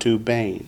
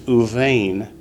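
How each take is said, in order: First: The consonant after the first vowel is a B. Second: The consonant after the first vowel is a V. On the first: The speaker calls it wrong. "not Ubain" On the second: The speaker calls it right. "the bait generally gets softened to a V sound"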